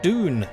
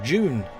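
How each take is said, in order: First: It starts with a plain d sound, like Doom. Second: It starts with a j sound, like June. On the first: "I've always called it Dune" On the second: "June sounds more like the month"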